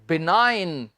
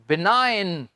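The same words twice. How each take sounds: First: The g is silent before the n. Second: The g is silent before the n.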